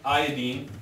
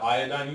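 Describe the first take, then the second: First: The ending rhymes with fluorine and chlorine. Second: The ending does not rhyme with fluorine. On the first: "I said it like that because it's nice if they all rhyme" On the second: "You'll hear a person calling that iodine"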